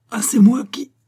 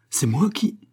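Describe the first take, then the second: First: High, loud indignant cry; indignant outburst. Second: Mildly indignant, higher rising question. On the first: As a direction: explode in protest, pitch soaring. Quarrel escalates, husband protests again. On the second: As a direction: protest with a touch of disbelief. Husband protests wife's accusation. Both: A narrator's reading.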